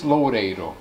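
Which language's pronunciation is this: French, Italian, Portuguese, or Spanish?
Portuguese. The name is said with Portuguese pronunciation.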